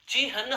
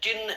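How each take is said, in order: First: The h sound comes before the n. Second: The n sound comes before the h. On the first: The speaker calls it right. "ची है न होना चाहिए" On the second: The speaker calls it wrong. "होता ही नहीं है"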